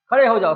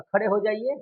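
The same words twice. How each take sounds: First: Loud, sharp command; stern command, louder; strict order. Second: Gentle, courteous asking; polite request. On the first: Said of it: "सख्ती से हो, वो क्या कहलाएगा? Order". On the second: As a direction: ask it politely. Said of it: "request". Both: Shown as a demonstration.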